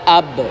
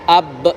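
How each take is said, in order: First: The final b bounces lightly toward an a. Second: The final b ends in a glottal stop. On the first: The speaker calls it right. "memantulkan hurufnya lebih dekat kepada baris fathah" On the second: The speaker calls it wrong. "berakhir dengan dengan hamzah"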